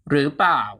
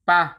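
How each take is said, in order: First: It is said in full with two syllables. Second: It is cut to one short syllable, ปะ. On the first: "gradually shorten the pronunciation" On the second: "shorten it even further to"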